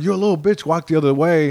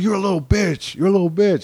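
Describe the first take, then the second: First: Imitated bully, pitched up at first; mock aggressive. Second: Higher, insistent bully imitation; mock tough, turned up. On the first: Gangbanger to comic on street, mock aggressive. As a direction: act out a bully giving orders. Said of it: "he's really aggressive". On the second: Bully performing for passing girls, mock tough turned up. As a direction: play the bully showing off harder. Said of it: "turns it up even more to look tough".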